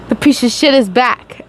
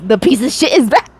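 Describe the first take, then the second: First: It is said in a normal voice. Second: It is said in a funny voice.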